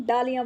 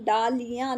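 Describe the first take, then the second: First: Said in the usual way. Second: डालियाँ with a long middle ee, daa-lee-yaan; गलत लंबी ई. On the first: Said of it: "हम डालियाँ बोलते हैं". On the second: Shown as a demonstration. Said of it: "हम डालियाँ नहीं बोलते". (डालियाँ में बड़ी ई की मात्रा)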